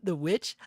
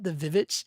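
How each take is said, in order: First: The title begins with a plain W sound. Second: The title begins with a doubled V sound.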